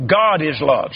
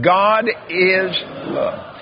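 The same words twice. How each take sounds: First: Said in the usual way. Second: Slow drawn-out. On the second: Shown as a demonstration. Preacher leading the congregation to repeat, slowly. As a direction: stretch God is love out slowly. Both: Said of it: "Say that".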